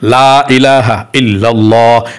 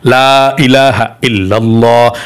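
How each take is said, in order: The two takes are said the same way.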